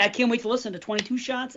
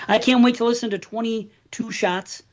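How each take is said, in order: First: Twenty-two Shots with the emphasis misplaced; misplaced stress. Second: Twenty-two Shots with the stress put back deliberately; corrected stress. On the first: Real, not acted. Host excited about a show, slipping into misplaced stress. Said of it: "I said it the wrong way". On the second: Shown as a demonstration. Host redoing a line said the wrong way, corrected stress. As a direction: say twenty-two Shots carefully, a touch firmer. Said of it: "oh, I said it the wrong way".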